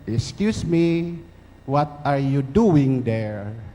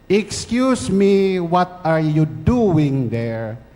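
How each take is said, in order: First: The voice is small and quiet. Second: The voice is pitched higher. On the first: "in a small voice said" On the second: "Higher pitch"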